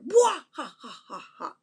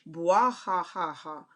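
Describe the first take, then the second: First: It is said loudly, with power. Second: It is read out plainly, without force.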